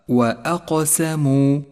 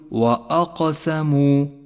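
First: The glottal stop is light and thin-sounding. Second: The glottal stop is heavy and thick-sounding. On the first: The speaker calls it right. "اقرأها صحيحا هكذا" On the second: The speaker calls it wrong. "أن تفخم الهمزة التي قبل القاف، أي أن تقول وأقسموا، وهذا خطأ شائع"

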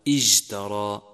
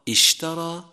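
First: The middle consonant is a voiced j. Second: The middle consonant is a spread, hissing sh. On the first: The speaker calls it wrong. "يقال اجترى" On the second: The speaker calls it right. "فبدل أن يقال اشترى"

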